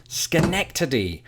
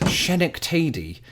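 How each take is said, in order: First: "Schenectady" as skuh-NEK-tuh-dee, slowly; true delivery. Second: "Schenectady" with "sh" and a long "ay"; mistaken first guess. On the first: Revealing what a patron taught him, "Schenectady" said skuh-NEK-tuh-dee. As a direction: say "Schenectady" slowly with "sk" and short vowels. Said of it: "true delivery". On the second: Confessing his first guess, "Schenectady" said SHEN-ik-TAY-dee. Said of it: "my first guess was". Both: Shown as a demonstration.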